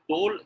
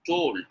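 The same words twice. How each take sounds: First: "told" cut to "tol", no final d; incorrect dropped ending. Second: "Told" with the final d released hard; clearly sounded ending. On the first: Teacher showing the learners' error, "told" without its final d. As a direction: leave the d off the end of "told". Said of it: "is not correct pronunciation". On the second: Teacher modelling a word ending for learners, "Told" finished crisply. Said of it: "you need to make the sound". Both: Shown as a demonstration.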